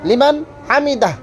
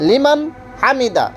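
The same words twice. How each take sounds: No difference in how they are said.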